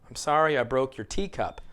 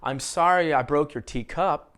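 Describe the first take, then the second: First: The stress falls on tea in teacup. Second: The stress falls on cup in teacup.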